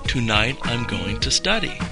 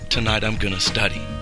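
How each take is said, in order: First: 'Going to' is said as two full words. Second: 'Going to' is squeezed into one word, 'gonna'.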